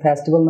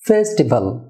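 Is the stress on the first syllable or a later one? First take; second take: later; first. First: The stress is not on the first syllable. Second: The stress is on the first syllable. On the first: The speaker calls it wrong. "এটা festival না" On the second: The speaker calls it right. "ফেতে stress হবে"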